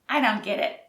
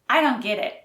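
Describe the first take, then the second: First: The T sounds are soft and unclear. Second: The same.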